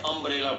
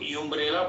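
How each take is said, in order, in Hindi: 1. शब्द की शुरुआत सादे स्वर से होती है। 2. शब्द की शुरुआत 'y' की आवाज़ से होती है। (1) "आप साउंड क्या निकालते हैं, ए का" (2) "यू लिखा जरूर है, लेकिन आप साउंड क्या निकालते हैं, ए का"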